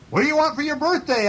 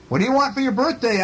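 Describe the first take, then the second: First: Very high, quick echoed question; moon's echo. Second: High, quick storybook question; calling bear. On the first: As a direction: echo the question back in a higher voice. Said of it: "asked Moon". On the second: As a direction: call the question up to the moon. Bear calls across to the moon. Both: A narrator's reading.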